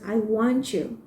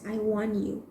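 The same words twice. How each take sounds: First: The t and y merge into a ch sound. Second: The t and y are said as separate sounds. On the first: The speaker calls it right. "It becomes I want you" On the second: The speaker calls it wrong. "it doesn't sound as I want you"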